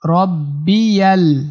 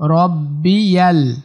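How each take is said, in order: No difference in how they are said.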